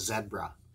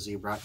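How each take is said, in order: First: It is said with a Canadian pronunciation. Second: It is said with an American pronunciation.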